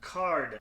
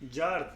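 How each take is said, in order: First: The word begins with a K sound. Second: The word begins with a J sound. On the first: "Like with a K" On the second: "If I wanna read this Turkish"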